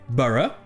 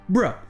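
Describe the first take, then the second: First: Both vowels are pronounced as short weak sounds. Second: The first vowel is dropped, leaving one syllable. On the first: "au lieu de se prononcer" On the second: "la voyelle disparaît"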